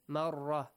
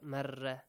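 First: The ra sound is heavy and full. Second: The ra sound is light and thin. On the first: The speaker calls it right. "pronounce them with a heavy sound" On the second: The speaker calls it wrong.

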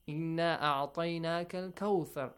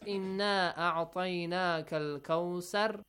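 First: Kawthar is said with a 'th' sound. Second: Kawthar is said with an 's' sound. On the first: The speaker calls it right. "He recited it correctly" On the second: The speaker calls it wrong. "instead of saying tha, the correct sound, if they say sar, so yes, it becomes wrong"

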